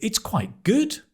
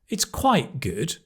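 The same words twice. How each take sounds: First: The stress is on the word good. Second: The stress is on the word quite. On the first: It is very good. "Put the stress on the good" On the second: It is only okay. "if you emphasize quite, then it's so-so"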